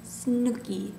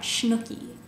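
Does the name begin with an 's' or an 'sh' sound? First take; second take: s; sh. First: The name begins with a plain s sound. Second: The name begins with an sh sound. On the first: "I thought it was Snooki" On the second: "not Schnooki"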